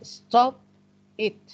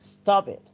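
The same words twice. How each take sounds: First: The two words are said separately. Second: The two words run together as one. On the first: The speaker calls it wrong. "we don't say stop it" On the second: The speaker calls it right. "This is called linking"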